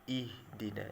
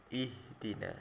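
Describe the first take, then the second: The two takes are said the same way.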